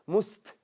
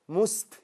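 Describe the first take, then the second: No difference in how they are said.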